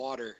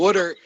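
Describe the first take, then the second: First: It is said in a standard accent. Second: It is said in a Philadelphia accent.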